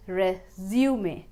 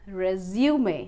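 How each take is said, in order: No difference in how they are said.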